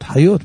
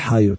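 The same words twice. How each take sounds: First: The stress is on the last syllable. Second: The stress is on the first syllable. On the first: The speaker calls it right. "חיות מלרע" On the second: The speaker calls it wrong. "לא כי חיות"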